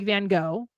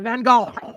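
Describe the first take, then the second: First: It is said with an American accent. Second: It is said with a guttural throaty sound.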